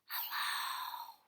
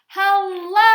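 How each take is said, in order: First: It is said very quietly. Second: It is said very loudly.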